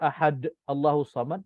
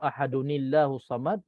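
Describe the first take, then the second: First: Ahad ends plainly with no added n sound. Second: Ahad runs into Allahu with an added n sound. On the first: The reciter stops after the verse. "selalu baca" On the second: The verses are joined without stopping. "imam baca"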